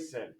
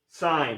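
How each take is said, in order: First: The word is said like 'sin', short vowel. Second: The word is said like 'sign', long vowel. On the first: The speaker calls it wrong. "Don't say sin" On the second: The speaker calls it right. "Sine, yes"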